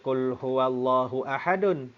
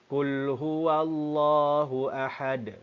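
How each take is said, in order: First: The last word ends with an added 'un' sound. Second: The last word ends on a stopped d sound. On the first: The speaker calls it wrong. "Kita tak baca" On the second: The speaker calls it right. "kita matikan huruf dal"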